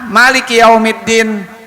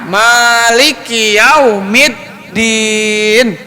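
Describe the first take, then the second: First: The first vowel is held short. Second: The first vowel is held long. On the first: It follows another accepted reading. "maknya pendek" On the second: It is the reading most people use. "maknya pan, panjang"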